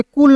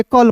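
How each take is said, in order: First: कुल with an "oo" sound, "kul"; wrong vowel. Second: कल with a short "uh", "kal"; corrected vowel. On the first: Teacher rejecting the literal reading of CUL, कुल with a sounded U. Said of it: "तो इसे कुल नहीं पढ़ेंगे". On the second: Teacher correcting how CUL is read, कल with short "uh". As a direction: keep the U silent in कल, "kal". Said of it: "कल पढ़ेंगे". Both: Shown as a demonstration.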